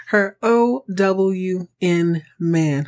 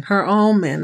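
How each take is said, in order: First: O W N spelled out very slowly; O W N spelled out slow for emphasis. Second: Said in the usual way. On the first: Shown as a demonstration. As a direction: stretch Her O W N man letter by letter. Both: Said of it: "That's right".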